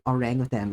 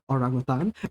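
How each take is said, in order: First: It uses the pronunciation common in other countries. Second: It uses the Malay-style Singapore pronunciation. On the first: This is how people in other countries say it. "like you do in other countries" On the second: This is how locals in Singapore say it. "that's how it's pronounced in Singapore"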